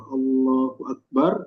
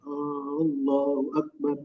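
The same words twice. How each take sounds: First: The first vowel of Allahu is short. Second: The first vowel of Allahu is drawn out long. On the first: It states that God is the greatest. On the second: It asks whether God is the greatest.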